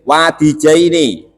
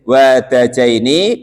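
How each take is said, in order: First: The vowel after the d is 'i'. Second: The vowel after the d is 'a'. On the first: "wa kasruha dan kasronya dal" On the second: "bifathid dali dengan dibaca fathah dalnya"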